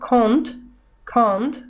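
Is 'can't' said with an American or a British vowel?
British. The vowel is deep and back in the throat. "британцы говорят такое сокращение, как can't, глубокий, как бы в горло уходящий звук"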